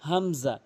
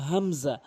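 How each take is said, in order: Both takes have the same delivery.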